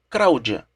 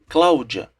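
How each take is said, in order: First: The second sound is an R. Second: The second sound is an L. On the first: "mudança do le para o re chama-se rotacismo" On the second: "no lugar de Cláudia"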